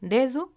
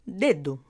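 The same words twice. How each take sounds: First: Said in the usual way. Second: "dedo" with the middle d a hard dental stop; second D like the first. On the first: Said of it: "sería su sonido normal". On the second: Shown as a demonstration. Teacher showing intervocalic D said as first D, hard stop. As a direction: say "dedo" closing the tongue firmly on both ds. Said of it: "pronunciándola como la primera D".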